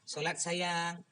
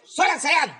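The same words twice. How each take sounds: First: It is said softly and gently. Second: It is said sharply, like a snap.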